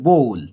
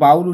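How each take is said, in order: First: The vowel sounds like 'oh' in go. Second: The vowel sounds like 'ow' in cow. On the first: The speaker calls it right. "সঠিক উচ্চারণ হচ্ছে বোল" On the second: The speaker calls it wrong. "এটা বাউল উচ্চারণ করে অনেকে"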